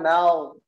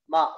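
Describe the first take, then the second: First: The syllable sounds thick, with a rounded vowel. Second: The syllable sounds thin, with a plain open vowel. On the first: The speaker calls it wrong. "bukan mau" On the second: The speaker calls it right. "ma-nya hati-hati ma"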